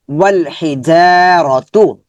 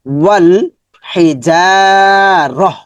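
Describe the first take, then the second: First: Slow reading ending on a voiced তু; final তু pronounced. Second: Slow ওয়াল হিজারহ with closing h; pausal h ending. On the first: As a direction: recite ওয়াল হি যা র তু, sounding the t at the end. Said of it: "যদি সর্বশেষ গোল তা হয়". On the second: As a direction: end হিজারহ on a breathed h instead of t. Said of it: "কিন্তু আমরা হা পড়বো". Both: Shown as a demonstration.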